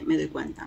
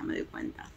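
First: Said in the usual way. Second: Breathy whisper, almost to herself; whispered aside. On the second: Real, not acted. Repeating her discovery to herself, whispered. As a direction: hush it like a private realisation.

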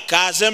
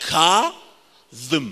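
First: کاظم with an ordinary z for ظ; wrong pronunciation. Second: کاظم drawn out very slowly, with a heavy ظ; corrected pronunciation. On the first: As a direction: say کاظم run together with a simple z sound. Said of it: "کاظم نه". («کاظم» با ز ساده و معمولی) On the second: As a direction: stretch the first syllable of کاظم, then thrust out the ظم. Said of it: "کاظم نه، کاظم". («کاظم» خیلی کشیده با ظای غلیظ) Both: Shown as a demonstration.

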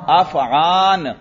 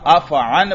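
First: अफ़आन very slow, long aa before final n; drawn-out अफ़आन, closed on n; intermediate long-vowel form. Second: अफ़अन with short a before final n; short-ending अफ़अन, finished on n; alif dropped. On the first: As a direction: stretch the aa in अफ़आन. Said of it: "क्या बन गया?". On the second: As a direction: say अफ़अन with no lengthened vowel. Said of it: "अलिफ इज्तिमाई साकिनैन से गिर गया". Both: Shown as a demonstration.

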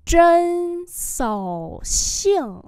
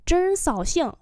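First: Chân xảo xiang slow and high; slow demonstration. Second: Said in the usual way. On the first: Shown as a demonstration. Teacher repeats "Chân xảo xiang" for learners, slowly. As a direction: stretch each syllable of Chân xảo xiang.

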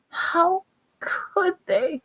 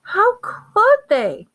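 First: High, slow, choked half-whisper. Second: Very high, loud, slow cry; choked outcry. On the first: Hermione, breathing shallow and uneven, choked up. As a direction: draw it out as if the throat is closing. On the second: Hermione after bad news, breathing unevenly, in a choked outcry. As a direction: wail it out, hitting COULD. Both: A narrator's reading. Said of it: "she choked".

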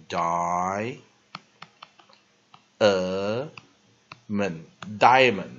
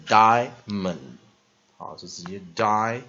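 First: "diamond" pulled apart, die... uh... mund, then joined; very slow "diamond" with a separate middle uh; three-syllable diamond. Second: "diamond" as just die-mund, no middle uh; two-syllable diamond. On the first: Teacher demonstrating the variant some people use, "diamond" split into three drawn-out syllables. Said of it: "把它分成三个音节念". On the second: Teacher showing what most people usually say, "diamond" in two syllables. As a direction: say "diamond" straight through in two beats. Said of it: "通常人念diamond". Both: Shown as a demonstration.

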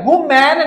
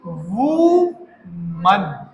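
First: वूमन as "woo-MAN"; wrong woman pronunciation. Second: वूमन very slow and low, "WU ... mun"; correct woman pronunciation. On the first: Teacher showing the mistake, वूमन as "woo-MAN". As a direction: open "man" at the end of वूमन. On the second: Teacher modelling for students, वूमन as slow "wu-mun". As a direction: stretch वूमन in two parts, reduced "mun". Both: Shown as a demonstration. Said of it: "वूमन नहीं".

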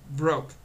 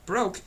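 First: Said in the usual way. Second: Higher, disbelieving question; incredulous echo. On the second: A narrator's reading. Boy cannot believe she has no money, incredulous. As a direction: throw the word back in disbelief.

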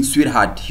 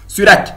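First: Said in the usual way. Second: A loud, higher mock sweetheart; a hammed-up flirty Sweetheart; mock sweet call. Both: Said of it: "they call you sweetheart".

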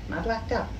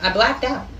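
First: Much softer, trailing away; faded to near silence. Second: Said in the usual way. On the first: Real, not acted. Soft trailing mumble. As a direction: haul mumbling it to friends, fading to nothing.

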